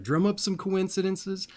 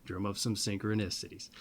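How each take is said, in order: First: Higher, brighter first call; upbeat lift. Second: Dropped echo. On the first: Urging viewers to go find magic, higher and lifted. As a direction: pitch it up like a rallying call. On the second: Echoing his own call to viewers, lower and softer. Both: Shown as a demonstration.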